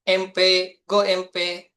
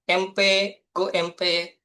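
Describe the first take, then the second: The two takes are said the same way.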